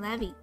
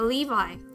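First: The name is pronounced the English way. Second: The name is pronounced the Japanese way.

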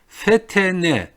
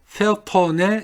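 First: The vowels after the t sound thin. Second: The vowel after the t sounds broad. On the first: The speaker calls it right. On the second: The speaker calls it wrong.

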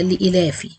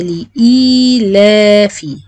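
First: The vowel after the hamza is cut short. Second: The vowel after the hamza is held two counts. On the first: The speaker calls it wrong. "في ناس بتترك مد الهمزة، المد البدل" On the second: The speaker calls it right. "أنا عايزة لإيلافي، أعمل أو أتأكد إن الياء حركتين"

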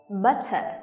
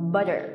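First: It is said in a British accent. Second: It is said in an American accent.

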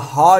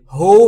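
First: The vowel is a plain ah sound. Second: The vowel is a plain oo sound. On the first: "هو یا ها نیست" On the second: "هو یا ها نیست"

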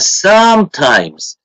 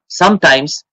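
First: The stressed first syllable is clearly lengthened. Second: The stressed first syllable is short. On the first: The speaker calls it right. "Ударный слог произносится длиннее. Раза в два, три" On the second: The speaker calls it wrong. "Нас считают так"

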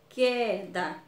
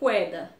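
First: It starts with a plain k sound. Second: It starts with a kw sound. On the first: The speaker calls it right. "Eu tenho que ler queda" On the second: The speaker calls it wrong. "eu não posso ler queda"

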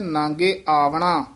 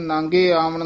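First: The second word ends with a long a vowel. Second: The second word ends with a consonant. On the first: The speaker calls it right. "ਇੱਥੇ ਕੰਨਾ ਹੈ" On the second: The speaker calls it wrong. "ਕਈ ਵਾਰ ਪਾਠੀ ਸਿੰਘ ਨਾਂਗੇ ਆਵਣ ਨਾਂਗੇ ਜਾਣਾ ਕਹਿ ਦਿੰਦੇ ਹਨ"

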